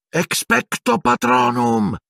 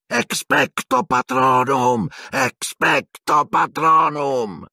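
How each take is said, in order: First: High, slow, shrieked incantation; Harry casting at the dementor, shrieking the spell. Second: High, slow, strained incantations; Harry struggling against the dementor, repeated crying out; desperate repeated spell. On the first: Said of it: "strillò Harry". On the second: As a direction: keep crying the spell as it fades. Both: A narrator's reading.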